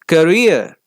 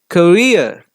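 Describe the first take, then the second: Both takes have the same delivery.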